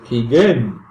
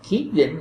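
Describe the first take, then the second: First: The stress is on the last syllable. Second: The stress is on the first syllable. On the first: This is the French way of saying the name. "in French, sometimes the accent is on the end of the word" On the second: This is the English way of saying the name. "in English it's at the beginning of the word"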